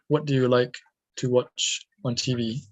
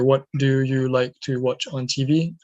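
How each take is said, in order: First: The small words are said quickly and reduced. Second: Every small word is said fully and evenly. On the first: The speaker calls it right. "I say" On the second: The speaker calls it wrong. "I don't say"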